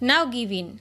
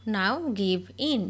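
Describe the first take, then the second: First: Said in the usual way. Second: Very slow, word by word; each word drawn out for learners to copy; slow dictation. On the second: Shown as a demonstration. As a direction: spell it out slowly for the class. Repeated slowly for learners.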